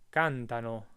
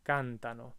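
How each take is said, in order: Both takes have the same delivery.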